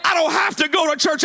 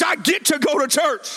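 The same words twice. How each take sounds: First: "have" punched as the word to reject; "have" stressed above the words around it. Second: "get" held and emphasized against the rest; stress on GET. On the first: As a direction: lean hard on "have" in a preacher's contrast. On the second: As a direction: lean on "get" in a preacher's contrast. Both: Real, not acted. Contrasts duty with privilege.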